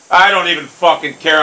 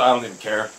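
First: Louder, emphatic brush-off; angry dismissal. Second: Low, soft, quick brush-off; subdued dismissal. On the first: Gamer insisting he is over the miss, angry dismissal. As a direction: insist on it with rising temper. Same words, angrier and louder. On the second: Gamer pretending not to mind the miss, subdued dismissal. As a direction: toss it off quietly. Claims indifference, subdued take. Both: Real, not acted.

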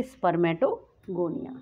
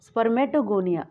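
First: Each syllable of spermatogonia drawn out slowly; teacher dictating the term spermatogonia slowly; slow dictation. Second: Said in the usual way. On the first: Shown as a demonstration. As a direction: spell out spermatogonia slowly so students can write it. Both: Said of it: "सबसे पहले क्या बनेंगे?".

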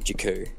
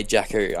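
First: "Jakku" run together as juh-KOO; "Jakku" shortened to a quick juh-KOO; hurried, reduced pronunciation. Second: "Jakku" said in full as JACK-oo; both syllables of "Jakku" sounded, JACK-oo; intended full pronunciation. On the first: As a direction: say "Jakku" with the first vowel swallowed. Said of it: "I'm saying it faster". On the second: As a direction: say "Jakku" with a clear "jack" first. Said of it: "I'm meaning to say". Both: Shown as a demonstration.

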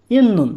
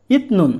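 First: ইন্নুন said as in-nun, the t turned into a doubled n, a bit louder; correct pronunciation demo. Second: ইতনুন said with a clear t before nun, the wrong way; wrong pronunciation demo. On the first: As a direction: give the right ইন্নুন with a doubled n. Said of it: "নিয়ম অনুযায়ী উচ্চারণ হচ্ছে". (সঠিক উচ্চারণ ইন্নুন, দ্বিত্ব ন দিয়ে) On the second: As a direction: show the wrong ইতনুন with a hard t. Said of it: "নিয়ম যদি বাদে উচ্চারণ করেন". (ভুল উচ্চারণ ইতনুন, ত স্পষ্ট করে) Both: Shown as a demonstration.

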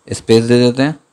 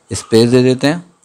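The two takes are said the same way.

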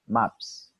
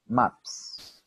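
First: Said in the usual way. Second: Maps with a puff of air on the final s; Maps, ending breathed out like a tire deflating; voiceless Maps ending; airy burst. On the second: Shown as a demonstration. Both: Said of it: "una explosión de aire".

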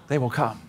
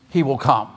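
First: Hushed, whispered promise; mysterious movie voice. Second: Said in the usual way. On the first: Acted. Preacher quotes the voice the farmer kept hearing, whispered. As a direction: whisper it like an unseen voice. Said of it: "the voice kept saying".

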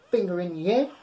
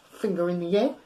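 No difference in how they are said.

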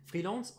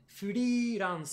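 First: Said in the usual way. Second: Freelance said as fu-ri-ransu, louder; Japanese-style freelance. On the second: Shown as a demonstration. Teacher showing freelance in Japanese. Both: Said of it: "en japonais".

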